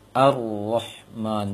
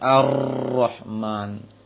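First: The r has a short, light trill. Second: The r has a long, heavy trill. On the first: The speaker calls it right. "menyembunyikan takrir" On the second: The speaker calls it wrong. "jangan Ar-Rahman"

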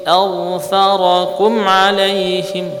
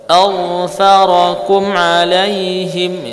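The two takes are said the same way.

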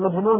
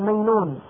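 First: The middle consonant is a j sound. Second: The middle consonant is a y sound. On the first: "وعلى مجنون" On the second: "هذه الجيم بالجيم ياء ... يقول مينون"

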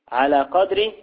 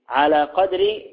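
The two takes are said the same way.

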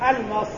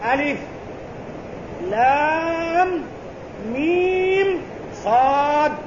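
First: The letters are run together as one word. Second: Each letter is said by its full name. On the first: The speaker calls it wrong. "لا، ليس بألمص" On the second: The speaker calls it right. "وإنما القراءة"

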